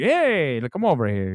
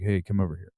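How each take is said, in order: First: Mock a movie-Italian accent coming back; big House of Gucci Italian accent; Adam Driver accent. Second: Said in the usual way. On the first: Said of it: "remember in House of Gucci?". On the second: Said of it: "all of a sudden it disappears".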